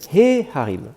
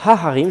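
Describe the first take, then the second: First: The article before harim is pronounced 'he'. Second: The article before harim is pronounced 'ha'. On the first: The speaker calls it right. "je vais dire he harim" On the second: The speaker calls it wrong. "je ne vais pas dire ha harim"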